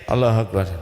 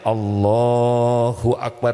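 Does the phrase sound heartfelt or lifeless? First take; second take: lifeless; heartfelt. First: It is said flatly, without feeling. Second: It is said with full feeling. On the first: The words are recited without inner presence. The speaker calls it wrong. "itu gitu udah nggak ada ruhnya tuh" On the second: The words are recited with inner presence. The speaker calls it right. "Harusnya kan"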